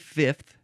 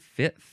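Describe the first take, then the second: First: The F sound is strongly exaggerated. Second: The F sound is light and natural. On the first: "I'm probably overemphasizing it right now" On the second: "I feel like I would just say fifth"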